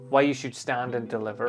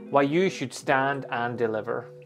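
First: 'Stand and deliver' gets only light emphasis. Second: 'Stand and deliver' gets strong emphasis. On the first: "maybe the first one is" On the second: "stand and deliver should be a bit more"

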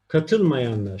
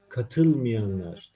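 First: The vowel after m is a full a. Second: The vowel after m is narrowed. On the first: "katılmayanlar şeklinde yazılır" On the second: "Telaffuz ederken katılmayanlar deriz. Harf daralması kuralı gereği"

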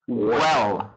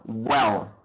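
No difference in how they are said.

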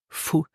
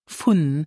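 First: The word ends without any n sound. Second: The word ends with a clear n sound. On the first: "but with the N rule, we will pronounce it fu" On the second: "here we add the preposition von"

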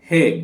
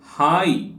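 First: The vowel is a plain 'e' sound. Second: The vowel is a gliding 'ai' sound. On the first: The speaker calls it right. "ಇದು ಹೇ ಹೇ" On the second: The speaker calls it wrong. "ಹಾಯ್ ಅಂತ ಓದಬೇಡಿ"

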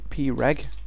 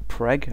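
First: It is spelled out letter by letter. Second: It is said as a single word.

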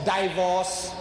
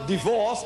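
First: The word is said with a foreign accent. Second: The word is said in standard English. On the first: The speaker calls it wrong. "Some of my people, they pronounce divorce as divorce" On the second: The speaker calls it right. "they pronounce divorce as"

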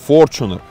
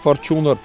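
First: The stress is on the first syllable. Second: The stress falls on a later syllable. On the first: The speaker calls it right. "делали ударение на первый слог, именно Fortuner" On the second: The speaker calls it wrong. "ни Fortuner"

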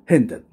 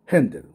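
No difference in how they are said.

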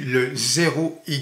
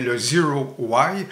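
First: The name is said with French pronunciation. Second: The name is said with English pronunciation. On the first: "je vais le prononcer de cette façon-là" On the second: "en anglais bien sûr"

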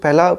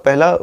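The two takes are said the same way.

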